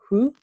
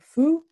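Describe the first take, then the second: First: The syllable starts with a breathy H sound. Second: The syllable starts with a soft F sound. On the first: "you can pronounce it with an H and it will become who" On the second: "you can even say it with an F and it will become foo"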